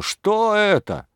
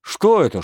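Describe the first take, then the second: First: "Что это?" stretched slowly at a very high pitch; drawn-out outraged question. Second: "Что это?" snapped out much higher and louder; sharp angry question. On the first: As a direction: draw "Что это?" out, high and slow, in disbelief. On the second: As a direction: fire "Что это?" as a quick outraged challenge. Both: Acted. Mayor berates the constables.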